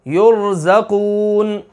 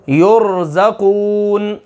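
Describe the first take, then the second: First: युरज़क़ून slowly with a thick ra; heavy ra model. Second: युरज़क़ून slow, thick ra after u; heavy ra example. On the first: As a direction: say युरज़क़ून for the class, ra full. (युरज़क़ून खींचकर, मोटी रा से) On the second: (युरज़क़ून धीरे, मोटी रा के साथ) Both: Shown as a demonstration. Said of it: "या पेश रा".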